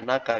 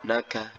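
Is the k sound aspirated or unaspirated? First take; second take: unaspirated; aspirated. First: The k is held without a puff of air. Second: The k is released with a puff of air. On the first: The speaker calls it right. "cukup ya naga biasa" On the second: The speaker calls it wrong. "Tidak naga, naga. Tidak seperti itu"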